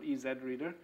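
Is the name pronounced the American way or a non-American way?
non-American. The name is said with non-American pronunciation. The pun is lost. The speaker calls it wrong. "not EZ Reader"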